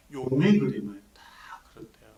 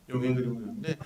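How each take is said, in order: First: Hushed whisper of 용의 그림을; storyteller's whisper. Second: Said in the usual way. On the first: Real, not acted. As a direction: lean in and whisper as if telling a secret.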